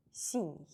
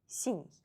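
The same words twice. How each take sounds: The two takes are said the same way.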